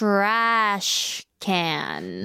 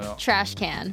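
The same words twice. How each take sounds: First: It is said very slowly. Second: It is said at normal speed.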